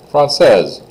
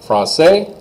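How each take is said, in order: First: High, loud française falling onto Z. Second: High, rising français, no S; silent S. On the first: Teacher leads students one after the other, Z sounded. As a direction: punch française and close on Z. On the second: Teacher leads students one after the other, S silent. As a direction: lift français and leave it open. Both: Shown as a demonstration. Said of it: "just say them with me here".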